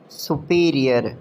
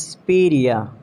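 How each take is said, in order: First: "Superior" as soo-PEE-ree-er; full SU and final R in "Superior"; mispronounced superior. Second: "superior" as s'PEER-ee-uh; reduced SU, silent final R in "superior"; British pronunciation. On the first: Acted. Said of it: "you have to correct me". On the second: Shown as a demonstration. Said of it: "It's superior".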